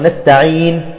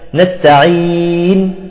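First: The long vowel is held for two counts. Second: The long vowel is held for four counts. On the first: "بالمد اثنين" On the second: "وأربعة"

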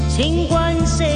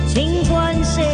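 Both takes have the same delivery.

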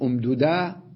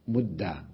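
First: The two d sounds are kept separate. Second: The two d sounds merge into one doubled d. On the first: The speaker calls it wrong. "هل يجوز أن أقول أمددا؟ لا" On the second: The speaker calls it right. "يجب الإدغام"

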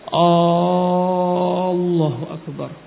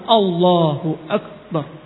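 First: The vowels are stretched out long. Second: The vowels are kept short and direct. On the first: The speaker calls it wrong. "kebanyakan dia memanjangkan ... Ini suatu kesalahan" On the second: The speaker calls it right. "langsung Allahu Akbar ... tanpa memanjangkan"

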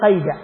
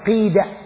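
First: The first vowel is not i. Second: The first vowel is i. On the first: The speaker calls it wrong. "ولا تقل قيدة" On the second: The speaker calls it right. "قيدة بالكسر"

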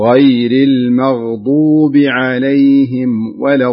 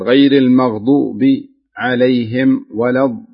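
First: The words flow together without any pauses. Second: The words are broken up by short pauses. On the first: The speaker calls it right. "فاجعلها متصلة، يعني تقول كذا بهذا بهذه الطريقة" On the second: The speaker calls it wrong. "انت بعض الحين تقف يعني تضع شيء من السكتات"

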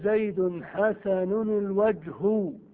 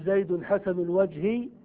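First: The last word ends with a u vowel. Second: The last word ends with an i vowel. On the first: The noun is the subject of the adjective. "ويجوز أن ترفع معمولها فتقول" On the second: The noun is governed by annexation. "يجوز أن تجر معمولها فتقول"

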